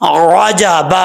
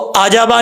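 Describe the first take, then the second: First: The word starts with a throaty ain sound. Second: The word starts with a plain vowel onset. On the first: The speaker calls it right. "आइन की ही आवाज आनी चाहिए, हमजा की नहीं" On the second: The speaker calls it wrong. "इसको आजाबा नहीं पढ़ना"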